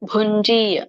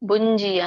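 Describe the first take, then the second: First: The first consonant is strongly aspirated. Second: The first consonant is plain, without aspiration. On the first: The speaker calls it right. "ಎಲ್ಲಿ ಮಹಾಪ್ರಾಣ ಇದೆಯಲ್ಲ" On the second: The speaker calls it wrong. "ಅಲ್ಲಿ ಮಹಾಪ್ರಾಣ ಬರ್ಲಿಲ್ಲ ... ಭುಂಜಿ ಅಂತ ಹೇಳಿದ್ರಿ"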